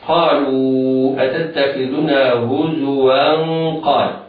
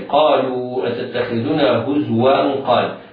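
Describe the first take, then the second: First: The z carries a short u vowel. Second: The z carries no vowel at all. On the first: The speaker calls it right. "الزاي مضمومة ... فينطق تنوين وصلا هكذا" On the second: The speaker calls it wrong. "بعض المبتدئين ينطقون خطأ بسكون الزاي"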